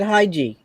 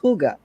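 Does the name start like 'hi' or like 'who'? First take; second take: hi; who. First: The name begins with a 'hi' sound. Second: The name begins with a 'who' sound. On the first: The speaker calls it wrong. "I've always pronounced it Haiji" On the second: The speaker calls it right. "and it's Huga"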